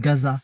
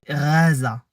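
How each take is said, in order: First: The name begins with a hard G sound. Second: The name begins with a throaty R-like sound. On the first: The Western rendering of the name. The speaker calls it wrong. "on dit Gaza" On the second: The original Arabic pronunciation of the name. The speaker calls it right. "la véritable prononciation, c'est Raza"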